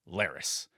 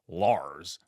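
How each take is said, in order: First: The name is said with two syllables. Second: The name is said as one short syllable. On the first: The speaker calls it right. "but rather Laris" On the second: The speaker calls it wrong. "I misspoke and the proper pronunciation on this character's name is not Lars"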